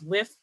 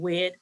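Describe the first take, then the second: First: The word ends with a 'th' sound. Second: The word ends with a 'd' sound. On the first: "that th sound" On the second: "or wid"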